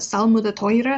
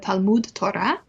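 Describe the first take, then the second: First: The first word begins with an s sound. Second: The first word begins with a t sound.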